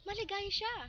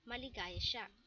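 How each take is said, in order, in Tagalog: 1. Sinabi ito bilang masayang padamdam. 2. Sinabi ito bilang payak na pahayag. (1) "Ito ay nagpapakita ng pagbubunyi" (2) "pinapakita ang pagpapahayag"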